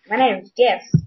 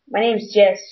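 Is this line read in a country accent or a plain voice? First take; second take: country accent; plain. First: It is read in a put-on country accent. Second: It is read in a plain, ordinary voice.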